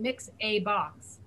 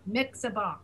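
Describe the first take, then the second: First: The word a is said apart from mix. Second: The word a runs straight on from mix. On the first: The speaker calls it wrong. "Instead of saying mix a box" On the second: The speaker calls it right. "say mix a box, ... Join it to the mix"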